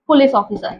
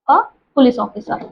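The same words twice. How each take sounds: First: Said in the usual way. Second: A police officer, slowed right down; slow, careful repeat of "a police officer"; slow dictation. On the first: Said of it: "first take". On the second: Shown as a demonstration. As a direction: repeat it slowly so students can write it. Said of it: "repeated slowly".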